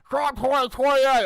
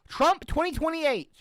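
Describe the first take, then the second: First: It is said in a put-on Cameron voice. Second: It is said in the speaker's own voice.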